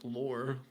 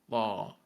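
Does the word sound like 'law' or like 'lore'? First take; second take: lore; law. First: The vowel is r-coloured, sounding like lore. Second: The vowel is a plain open aw sound. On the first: The speaker calls it wrong. "you're saying like lore" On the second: The speaker calls it right. "say the L sound first and then at all"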